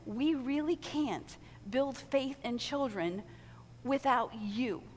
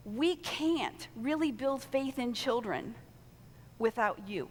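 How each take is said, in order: First: Put-on We really can't build faith in children without you, slowed and weighted; slow emphatic repeat. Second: Said in the usual way. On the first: Shown as a demonstration. Pastor repeating to volunteers, slow and weighty. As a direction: lean on every word. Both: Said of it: "let me just say that again".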